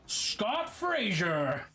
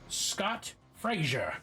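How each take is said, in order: First: The name is said like a Smash Bros announcer. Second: The name is said in a plain voice.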